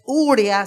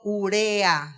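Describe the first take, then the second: First: The stress falls on the first syllable, u. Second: The stress falls on the second syllable, re. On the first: The speaker calls it wrong. "ya no lleva esa fuerza de voz en la U, no es urea" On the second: The speaker calls it right. "sino urea, según las normas de la lengua española"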